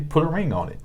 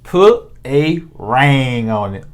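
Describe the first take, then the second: First: It is said in a Northern US accent. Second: It is said in a Southern US accent.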